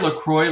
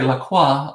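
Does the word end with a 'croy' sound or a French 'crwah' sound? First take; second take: croy; crwah. First: The ending rhymes with 'boy', like Saint Croix. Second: The ending sounds French, like 'crwah'. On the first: "I say LaCroix like Saint Croix, like the, the island" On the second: "some people say LaCroix like the designers"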